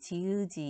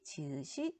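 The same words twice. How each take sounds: First: The final consonant links over as a j sound. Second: The final consonant links over as an s sound. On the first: This follows the regular linking rule. "원래는 연음돼서 디귿이, 지읒이 이렇게 발음해야 되거든요" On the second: This follows actual everyday pronunciation. "시옷으로 발음해요"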